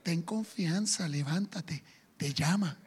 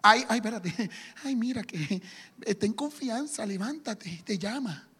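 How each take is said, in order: First: Much softer, lower, slow coaxing voice; mock sugary hypocrite; fake sweetness. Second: Much softer, laughing fawning voice; hammed-up fawning crowd; mock hypocrisy. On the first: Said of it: "ahora le dicen". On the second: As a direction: suck up with a giggle. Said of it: "hay algo de hipocresía".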